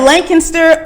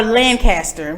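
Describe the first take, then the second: First: "Lancaster" as LANK-uh-ster; "Lancaster" with a swallowed middle, LANK-ister; local pronunciation. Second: "Lancaster" as LAN-cast-er; "Lancaster" split cleanly into Lan and caster; pronunciation contrast. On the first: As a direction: put a K sound after "Lan" in "Lancaster". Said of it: "they keep saying Lancaster". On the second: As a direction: say a full "cast" inside "Lancaster". Asks which pronunciation is right. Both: Shown as a demonstration.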